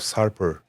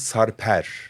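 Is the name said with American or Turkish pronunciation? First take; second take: American; Turkish. First: The name rhymes with the English name Harper. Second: The name has its native Turkish pronunciation. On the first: It is easier for Americans to say. "right now I'm calling myself Sarper. Like an Harper with an S" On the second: This is the name's original form. "normally my name is Sarper"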